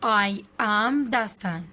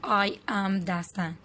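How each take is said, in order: First: It is said as two full words. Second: It is said as two full words.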